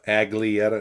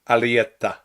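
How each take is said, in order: First: A G sound is pronounced in the middle. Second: No G sound is pronounced in the middle. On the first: The speaker calls it wrong. "people people mispronounce my last name" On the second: The speaker calls it right. "No, it's Alietta"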